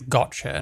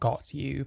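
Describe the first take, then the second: First: The t and y blend into a ch sound. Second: The t and y are said as separate sounds. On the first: The speaker calls it right. "It's gotcha" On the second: The speaker calls it wrong. "not got you"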